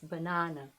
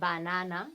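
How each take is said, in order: First: The first and last vowels are short schwas. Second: The first and last vowels are full and clear. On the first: The speaker calls it right. "You have two schwas there. The first one and the last" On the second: The speaker calls it wrong. "it's not banana"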